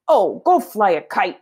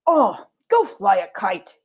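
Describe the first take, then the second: First: Rereading with annoyance. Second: Slow, fed-up dismissal; drawn-out irritated sigh of a line; exasperated brush-off. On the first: Shown as a demonstration. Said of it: "I'm gonna pause there". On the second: Acted. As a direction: send her off in a huff. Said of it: "threw down his napkin".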